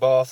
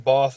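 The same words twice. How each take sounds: First: The vowel is short and flat. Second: The vowel is long and broad, like 'barth'. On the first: The speaker calls it right. "there's no R in bath" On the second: The speaker calls it wrong. "they say bath instead of bath"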